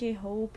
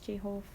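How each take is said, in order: First: The word hope ends with a P sound. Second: The word hope ends with an F sound. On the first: "instead of saying J hope" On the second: "he pronounces it with an F sound"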